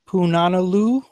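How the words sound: It sounds unsure, like a question. The speaker is not sure it is right. "Take away the invisible question marks"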